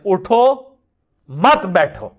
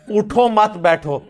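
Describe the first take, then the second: First: There is a pause after 'utho'. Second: There is a pause after 'utho mat'.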